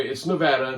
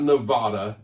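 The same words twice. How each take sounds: First: Nevada with a short flat A, as in "cat"; "Nevada" said the local way, nuh-VAD-uh; correct local pronunciation. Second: Nevada with a broad "ah" in the middle; "Nevada" the outsiders' way, middle vowel as in "father"; mispronunciation shown. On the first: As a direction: say "Nevada" with the middle vowel of "dad". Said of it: "not Nevada". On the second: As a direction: say "Nevada" as nuh-VAH-duh. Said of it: "by the way, it's Nevada". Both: Shown as a demonstration.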